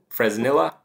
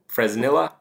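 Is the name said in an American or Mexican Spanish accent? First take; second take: American; American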